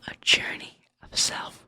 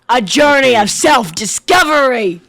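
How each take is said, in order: First: It is said at a quieter volume. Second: It is said at a louder volume.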